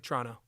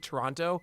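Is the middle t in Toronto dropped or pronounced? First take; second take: dropped; pronounced. First: The middle t sound is dropped. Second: The middle t sound is clearly pronounced. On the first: The speaker sounds like a local. The speaker calls it right. "You got to say Toronto. Just drop that middle" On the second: The speaker has never been to Canada. The speaker calls it wrong. "people who say Toronto, never been to Canada"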